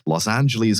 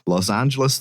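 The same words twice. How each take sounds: First: It is pronounced in a way locals do not. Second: It is pronounced the way locals say it. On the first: The speaker calls it wrong. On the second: The speaker calls it right.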